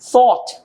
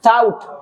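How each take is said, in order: First: The first sound has the tongue between the teeth. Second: The first sound is a plain t. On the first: The speaker calls it right. "ऐसे गोरा कहता है thought" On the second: The speaker calls it wrong. "अब हम अक्सर कहते हैं सेंट की सेकंड फॉर्म tout"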